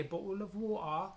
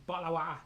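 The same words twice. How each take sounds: First: Slow mock London accent, rising at the end; Londonish accent. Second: Quick Geordie take, consonants dropped; Geordie accent. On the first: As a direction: demonstrate a London accent, drawing the words out. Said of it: "that's like a Londonish accent". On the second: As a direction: say it in Geordie, running the words together. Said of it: "It's not a Geordie". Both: Shown as a demonstration.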